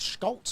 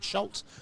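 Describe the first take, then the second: First: The name begins with an 'sk' sound. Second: The name begins with an 'sh' sound. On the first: The speaker calls it right. "I think it's Schultz. I don't think the C is silent" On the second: The speaker calls it wrong. "I've been saying Schultz"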